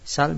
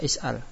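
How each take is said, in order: First: The word starts directly with an s sound. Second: The word starts with a vowel and glottal stop. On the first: "Bisa dibaca sal" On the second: "bisa is'al"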